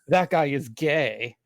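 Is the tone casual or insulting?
insulting. It is said in a mocking, insulting tone. It is meant as an insult.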